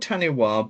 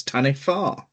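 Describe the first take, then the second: First: "Taniwha" with a w sound; "Taniwha" ending in a plain "wah"; pronounced as spelled. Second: "Taniwha" with wh as f; "Taniwha" ending in "fah"; researched pronunciation. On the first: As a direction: say "Taniwha" as written, TAN-ee-wah. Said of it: "it's spelled Taniwha". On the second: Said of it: "pronunciated as Taniwha". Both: Shown as a demonstration.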